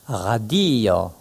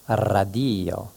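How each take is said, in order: Both takes have the same delivery.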